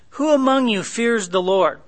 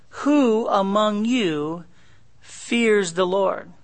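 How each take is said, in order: First: "Who among you" starts high, falling through "fears the Lord"; "Who" high, "Lord" dropping at the end; asked as question. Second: "Who among you" drawn out slowly, pause, then "fears the Lord"; long "Who", break before a slow "fears the Lord"; challenge. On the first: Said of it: "That's a question". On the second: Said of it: "It could be a challenge". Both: Shown as a demonstration.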